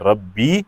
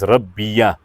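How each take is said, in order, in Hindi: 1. अंतिम y के बाद कोई स्वर नहीं है। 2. अंतिम y के बाद स्वर a आता है।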